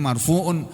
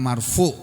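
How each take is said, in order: First: The word ends with a full -un sound. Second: The word ends abruptly with no vowel ending. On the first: This is how the word is written. "tulisannya marfu'un" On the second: This is how the word is read aloud. "membacanya marfu'"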